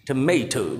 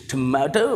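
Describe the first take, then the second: First: Tomato the American way, "tuh-MAY-toh"; American pronunciation. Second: Tomato the British way, "tuh-MAH-toh"; British pronunciation. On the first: Teacher contrasts how American people say it, American "tuh-MAY-toh". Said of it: "while the American people pronounce it". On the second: Teacher shows students how British people say it, British "tuh-MAH-toh". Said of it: "British people pronounce it". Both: Shown as a demonstration.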